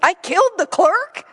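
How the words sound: It sounds like an astonished, disbelieving question.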